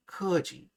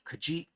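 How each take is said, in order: First: "keji" stressed on the first syllable, high and loud, then falling; wrong stress on first syllable. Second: "keji" stressed on its final syllable, pitch rising; short first syllable in "keji", lean up into the second; stress on last syllable. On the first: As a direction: punch the first syllable of "keji", let the second drop. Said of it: "it's not". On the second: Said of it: "accent jumps to the last syllable". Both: Shown as a demonstration.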